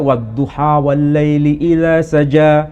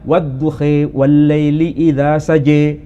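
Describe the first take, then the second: First: The first word ends in an open 'a' vowel. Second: The first word ends in a fronted 'i' vowel. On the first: This is one accepted reading. "Kita kadang baca" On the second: This is another accepted reading. "Atau boleh dibaca"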